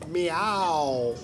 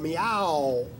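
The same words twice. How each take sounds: First: The stress is on the first syllable. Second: The stress is on the second syllable. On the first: "and then the accent on the me" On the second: "the accent on the ow"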